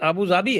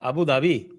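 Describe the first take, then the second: First: The second word begins with a 'z' sound. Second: The second word begins with a 'dh' sound. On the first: The speaker calls it right. "उसका actual pronunciation अबू ज़ाबी है" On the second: The speaker calls it wrong. "अबू धाबी है ना"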